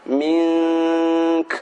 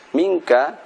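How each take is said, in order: First: The word ends with a hissed, breathy k. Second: The word ends with a vowel after k.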